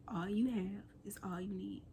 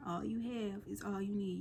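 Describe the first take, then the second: First: Whispered motto. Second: Said in the usual way. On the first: Real, not acted. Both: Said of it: "I call this series".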